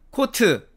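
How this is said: It is said with Korean loanword pronunciation. "우리는 코트 이렇게 말하죠"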